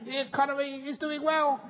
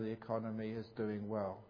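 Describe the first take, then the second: First: It is shouted loudly and fiercely. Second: It is said at a calm, normal volume.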